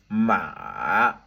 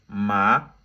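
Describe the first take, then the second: First: The pitch falls low then rises again. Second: The pitch rises from low to high. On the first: "ça descend en bas et puis ça remonte en haut" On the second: "du bas vers le haut"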